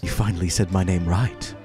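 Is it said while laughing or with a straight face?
straight face. It is said with a straight face.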